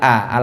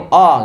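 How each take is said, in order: First: The fathah vowel is open, like 'a'. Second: The fathah vowel is rounded, like 'o'. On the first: This is how we usually say it. "kalau kita biasa bilang a" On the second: This is how people in that region say it. "orang-orang sana kalau bilang fathah itu oh gitu ya"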